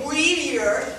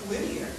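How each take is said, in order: First: It is said with a noticeable accent. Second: It is said without a noticeable accent. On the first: The speaker calls it wrong. "You don't say Whittier" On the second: The speaker calls it right. "you say Whittier"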